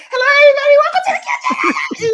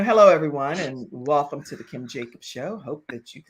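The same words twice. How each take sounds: First: Very high, loud, racing show welcome; hammed-up, over-excited high-pitched host; adrenaline-fueled excitement. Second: Hushed, low-pitched distinguished host. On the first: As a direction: squeal the welcome in a rush. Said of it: "the adrenaline is going and everything". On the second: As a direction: open the show smooth and refined. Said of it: "that's what I thought in my head". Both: Shown as a demonstration.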